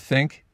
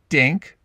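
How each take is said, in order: First: The word begins with a th sound. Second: The word begins with a d sound. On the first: "the th" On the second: "turning into a duh"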